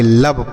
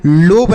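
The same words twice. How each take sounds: First: लब with a short 'uh' vowel; correct reading. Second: लोब with a long 'o' vowel; wrong reading. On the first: Teacher giving students the right reading, लब with short 'uh'. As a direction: say लब with a short, lower-pitched uh. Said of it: "लब पढ़ते हैं". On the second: Teacher telling students what to avoid, लोब with long 'o'. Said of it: "इसे हम लोब नहीं पढ़ेंगे". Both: Shown as a demonstration.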